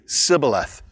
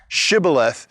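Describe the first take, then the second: First: The word begins with an 's' sound. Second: The word begins with a 'sh' sound. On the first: The speaker is from the tribe. The speaker calls it wrong. "they can't make the S H sound, so they end up saying Sibboleth" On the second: The speaker is not from the tribe. The speaker calls it right. "is pronounced with an S H"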